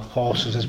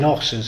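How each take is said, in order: First: The starting h sound is pronounced. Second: The starting h sound is dropped. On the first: This is how educated people say it. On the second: This is how the uneducated grandfather said it.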